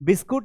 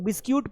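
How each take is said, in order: First: The word ends with a 'kut' sound. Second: The word ends with a 'kyoot' sound. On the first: "बिस्कुट नहीं पढ़ना है" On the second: "कुछ लोग बिस्क्यूट पढ़ते हैं, बिस्क्यूट नहीं होता है"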